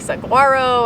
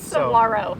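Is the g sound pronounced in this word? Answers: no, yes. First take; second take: yes; no. First: The word is said with a g sound. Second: The word is said without a g sound. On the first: The speaker calls it wrong. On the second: The speaker calls it right.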